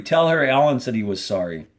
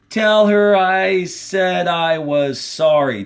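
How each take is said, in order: First: Said in the usual way. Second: 1 pleading. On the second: Acted. Squid pleading, emotional request.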